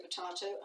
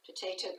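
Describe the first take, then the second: First: "potato" with an AH in the middle; alternative pronunciation. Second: "Potato" with a long AY in the middle; usual pronunciation. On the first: Teacher joking about accents, po-TAH-to. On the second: Teacher joking about accents, po-TAY-to. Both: Shown as a demonstration. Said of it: "I do not say potato".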